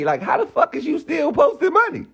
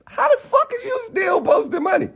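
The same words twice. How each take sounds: First: Said in the usual way. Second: Angry shouted repeat; shouting in disbelief. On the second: Real, not acted. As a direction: voice jumps much higher into a real shout. Ranting at a rival.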